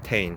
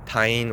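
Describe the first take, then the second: First: The vowel sounds like the one in rain. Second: The vowel sounds like the one in line. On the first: The speaker calls it right. "but it's, I believe, Tane" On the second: The speaker calls it wrong. "or tine"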